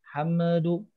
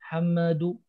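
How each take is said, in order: No difference in how they are said.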